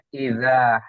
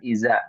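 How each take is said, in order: First: The middle consonant is a dh sound. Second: The middle consonant is a z sound. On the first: The speaker calls it right. "Harusnya idza" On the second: The speaker calls it wrong. "Ibu baca dengan iza ya"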